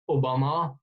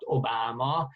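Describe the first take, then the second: First: The name is said with Hungarian sounds. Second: The name is said with English sounds.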